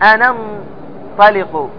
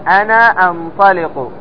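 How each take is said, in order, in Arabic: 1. تُحذف الهمزة، فتتصل الكلمتان. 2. تُنطق الهمزة بوضوح قبل الفعل. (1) "لكن أنا ما بتقول أنا انطلق، خطأ" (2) "بل تقول أنا انطلق، فتأتي بالهمزة في المضارع"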